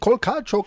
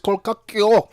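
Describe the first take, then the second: First: The last syllable sounds like 'cho'. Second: The last syllable sounds like 'kyo'. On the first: The speaker calls it wrong. "we were pronouncing it wrong" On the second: The speaker calls it right.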